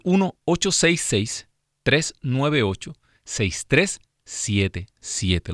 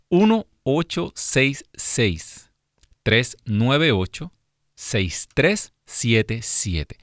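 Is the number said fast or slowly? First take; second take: fast; slowly. First: The number is said quickly. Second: The number is said slowly.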